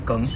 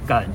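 First: The word is said with a rising tone. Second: The word is said without a rising tone. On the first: The speaker calls it right. "但是它其实是念梗，它是二声" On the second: The speaker calls it wrong. "但是大家其实都把它念成梗"

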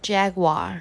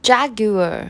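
First: It is said in an American accent. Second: It is said in a British accent.

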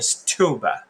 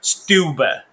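First: The t after s sounds like an aspirated t. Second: The t after s sounds like an unaspirated d. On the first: The speaker calls it wrong. "你不会念stupid" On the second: The speaker calls it right. "因为ST 要念SD 的音"

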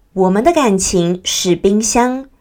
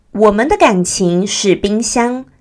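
Both takes have the same delivery.

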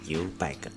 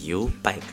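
First: It is said with a plain, neutral intonation. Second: It is said with a Paiwan-style intonation. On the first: "U-Bike 就直接讲U-Bike" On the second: "如果要排湾族的语调的话，就变成U-Bike 啦"

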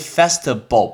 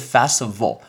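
First: The middle consonant sounds like a b. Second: The middle consonant sounds like a v. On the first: The speaker calls it wrong. "嘴唇碰到嘴唇就会变成b，就是Festival。不对哦" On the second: The speaker calls it right. "上面的门牙要碰到下面的嘴唇才会是vo"

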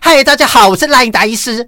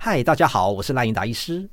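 First: The voice is strained, pushed from the throat. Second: The voice is relaxed, supported from the belly.

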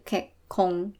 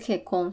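First: The middle k is held, with a brief stop. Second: The middle k is short, with no hold. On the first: The speaker calls it right. "要注意它中间有一个小的促音" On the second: The speaker calls it wrong. "所以不是K 空"

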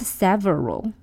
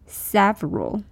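First: The word is said with three full syllables. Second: The word is said with two syllables. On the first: The speaker calls it wrong. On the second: The speaker calls it right.

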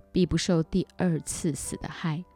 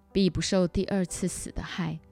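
No difference in how they are said.

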